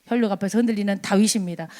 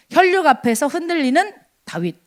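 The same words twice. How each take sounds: First: 혈육 앞에서 흔들리는 다윗입니다 said fast and lower, tossed off; preacher repeating the point title quickly and lower; quick restatement. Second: 혈육 앞에서 흔들리는 다윗 read out slowly, each word weighted; preacher announcing the fourth point, slow and weighty; slow title announcement. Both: Shown as a demonstration.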